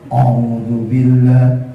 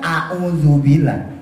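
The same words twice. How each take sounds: First: The first vowel is rounded toward an 'o'. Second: The first vowel is an open 'a' sound. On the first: The speaker calls it wrong. "Nggak sedikit itu A-nya jadi O" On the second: The speaker calls it right. "Harusnya kan a'udzubillah"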